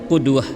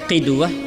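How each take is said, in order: First: The first vowel is a 'u' sound. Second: The first vowel is an 'i' sound. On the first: "boleh juga membaris dummahkan qudwah" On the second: "qaf dengan membaris bawahkan qafnya qidwah"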